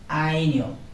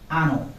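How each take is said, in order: First: The middle consonant is a palatal 'ny' sound. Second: The middle consonant is a plain 'n' sound. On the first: The speaker calls it right. "it will be pronounced like año" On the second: The speaker calls it wrong. "not ano"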